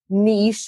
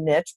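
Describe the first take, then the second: First: The word does not rhyme with rich. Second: The word rhymes with rich. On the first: "that doesn't rhyme" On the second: "so I say niche"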